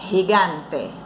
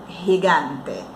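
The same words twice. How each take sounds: The two takes are said the same way.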